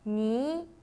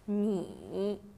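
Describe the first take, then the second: First: The pitch rises from middle to high. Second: The pitch dips low, then comes back up.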